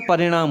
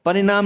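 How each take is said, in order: First: परिणाम with curled-back ṇaa; परिणाम with a clear णा; correct retroflex n. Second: परिणाम with plain dental naa; wrong dental n. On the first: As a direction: curl the tongue for the ण of परिणाम. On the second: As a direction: say परिणाम as pari-naam, tongue forward. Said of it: "नहीं होता". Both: Shown as a demonstration.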